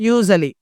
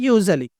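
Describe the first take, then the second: Both takes have the same delivery.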